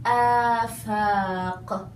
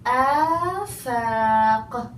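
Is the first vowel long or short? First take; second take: long; long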